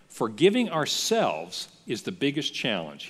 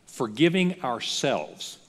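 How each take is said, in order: First: Said in the usual way. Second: "Forgiving ourselves" slowed right down and weighed; slow stressed punchline. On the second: Shown as a demonstration. Pastor driving the point home to the congregation, slow and weighty. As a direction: lean on "Forgiving", slow and deliberate. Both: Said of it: "I'll tell you what the greatest challenge".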